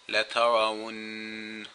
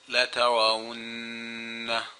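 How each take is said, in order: First: It ends on a held nasal n sound. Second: It ends with a short a vowel after n. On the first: The reader stops after this word. "I gave it a gunna, but I didn't pronounce the fatha that's on it, because I'm stopping here" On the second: The reader continues right after this word. "if I was going to continue reading after this right away"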